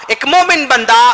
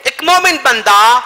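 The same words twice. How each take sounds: The two takes are said the same way.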